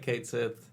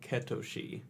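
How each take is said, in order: First: It is read as two words, 'Kate Sith'. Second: It sounds like 'Ketoshi', with three syllables. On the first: It is read the way it is spelled. "It looks like Kate Sith" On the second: It follows the original Japanese pronunciation. "the phonetic spelling of it is like Ketoshi"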